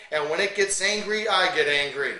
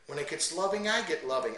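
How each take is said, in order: First: Angry. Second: Loving. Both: Shown as a demonstration. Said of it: "you notice how I adjust to the passages".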